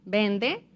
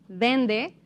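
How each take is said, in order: No difference in how they are said.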